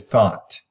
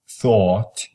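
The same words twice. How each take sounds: First: The vowel is a plain, open 'ah' sound. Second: The vowel is a lower, exaggerated 'aw' sound. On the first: This is how most American speakers say it. "they replace the aw with ah" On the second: This is how people in New England say it. "If you say thought"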